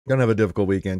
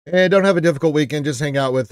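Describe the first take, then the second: First: Said in the usual way. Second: Louder, brisker send-off; cheerful call-out; louder, faster. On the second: Real, not acted.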